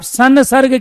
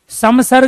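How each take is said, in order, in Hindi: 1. पहले अक्षर का अंत n ध्वनि से होता है। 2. पहले अक्षर का अंत m ध्वनि से होता है। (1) "आप साउंड निकाल रहे हो नए की" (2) "समसर्ग नहीं कह रहे हो आप"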